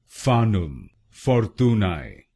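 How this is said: It is said with a Latin pronunciation.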